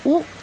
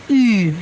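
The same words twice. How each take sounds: First: The vowel is short and plain. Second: The vowel is longer with an e-like colour. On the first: The speaker calls it wrong. "bukan U" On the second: The speaker calls it right. "tapi U. Jadi lebih panjang dan ada E-nya"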